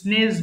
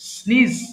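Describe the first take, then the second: First: The vowel sounds like the e in bed. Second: The vowel sounds like the ee in see. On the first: The speaker calls it wrong. "এটা অনেকে ভুল করে স্নেজ বলে" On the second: The speaker calls it right. "এটা হবে স্নিজ"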